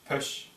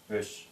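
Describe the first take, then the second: First: The first consonant has a sharp burst of air. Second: The first consonant has no strong burst of air. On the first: The speaker calls it right. "Резко выходит" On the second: The speaker calls it wrong. "Не просто пеш"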